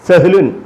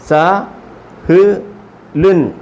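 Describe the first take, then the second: First: The syllables run together quickly as one word. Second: Each syllable is said separately with pauses between. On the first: "ഇനി സ്പീഡിലാണ് വായിക്കേണ്ടത്" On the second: "ആദ്യമേ ഓരോ അക്ഷരങ്ങൾ ഇങ്ങനെ നിർത്തി പറഞ്ഞെങ്കിലും"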